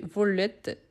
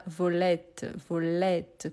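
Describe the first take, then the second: First: "volette" as vo-le-t, without the grave-accent sound; unopened e. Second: "volette" pronounced as if written volète; open e, grave accent. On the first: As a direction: say "volette" as if with one t, the e not opened to è. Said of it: "C'est pour ouvrir les sons". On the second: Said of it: "comme si c'était un accent grave". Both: Shown as a demonstration.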